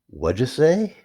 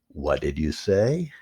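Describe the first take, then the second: First: It is said very fast with words run together. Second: It is said at a normal, unhurried speed. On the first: "A little bit faster than that" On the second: "you might say"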